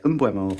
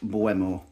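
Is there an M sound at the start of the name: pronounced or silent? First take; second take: pronounced; silent. First: The name starts with a sounded M. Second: The name starts without any M sound. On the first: "I might be wrong, and if I am, I'll say Mbuemo" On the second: "it's a silent M"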